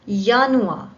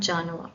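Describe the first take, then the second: First: The word begins with a Y sound. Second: The word begins with an English J sound. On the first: The speaker calls it right. "needs to be pronounced as Y" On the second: The speaker calls it wrong. "not Januar"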